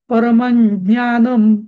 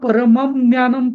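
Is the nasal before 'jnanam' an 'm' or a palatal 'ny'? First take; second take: palatal ny; m. First: The nasal is a palatal 'ny' sound. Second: The nasal is a clear 'm' sound. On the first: "यंग केला मी, कारण समोर ज्ञ ज्ञ आलेलं आहे" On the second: "परमम ज्ञानम पण चालेल"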